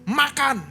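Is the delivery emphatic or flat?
emphatic. It is said with a marked, emphatic intonation. The message can be read as a reproach.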